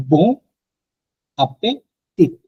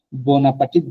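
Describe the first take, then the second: First: Bon appétit with a French a-pe-tit, not the movie way; appétit lifted and clearly split into a-pe-tit; French pronunciation. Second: Said in the usual way. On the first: Shown as a demonstration. Teacher shows the real French bon appétit. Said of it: "ফ্রেঞ্চে উচ্চারণ হচ্ছে". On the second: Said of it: "but এটা actually ফ্রেঞ্চে".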